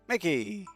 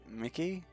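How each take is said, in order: First: It is said loudly with lots of energy. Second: It is said timidly and hesitantly.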